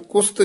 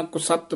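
First: ਕੁਸਤ squeezed into one syllable, kust; mispronounced ਕੁਸਤ. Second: ਕੁਸਤ in two syllables, ku-satt; careful ਕੁਸਤ. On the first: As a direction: drop the second vowel in ਕੁਸਤ. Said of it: "ਇਹਨੂੰ ਕੁਸਤ ਨਹੀਂ ਕਹਿਣਾ". (ਕੁਸਤ ਨੂੰ "ਕੁਸਤ੍" ਵਾਂਗ) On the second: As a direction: keep the second vowel in ਕੁਸਤ. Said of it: "ਕੁਸਤ ਬੋਲਣਾ". (ਕੁਸਤ ਨੂੰ "ਕੁ-ਸੱਤ" ਵਾਂਗ) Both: Shown as a demonstration.

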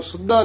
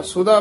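First: ਸੁੱਧਾ with a pressed double d; tight misreading. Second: ਸੁਧਾ with a single light dh; soft, loose. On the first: Teacher showing what not to say, ਸੁੱਧਾ with hard double d. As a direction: hold the d in ਸੁੱਧਾ. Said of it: "ਇਹਨੂੰ ਸੁੱਧਾ ਨਹੀਂ ਕਹਿ ਦੇਣਾ". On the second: Teacher correcting a pupil, ਸੁਧਾ soft with single dh. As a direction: glide lightly through the dh of ਸੁਧਾ. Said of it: "ਸੁਧਾ ਪੋਲਾ ਹੀ ਬੋਲਣਾ". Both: Shown as a demonstration.

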